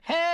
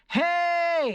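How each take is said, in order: First: It is a gritty, slightly open fry shout. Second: It is a full chest-voice shout.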